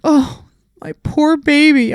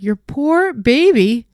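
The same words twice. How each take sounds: First: High, louder, slow cooing; doting owner. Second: Higher, slow sarcastic disbelief; incredulous echo. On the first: Owner watching the dog snap, high slow cooing. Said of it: "they're like". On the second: Groomer answering the owner, slow incredulous echo. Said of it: "I was like". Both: Retold or imitated.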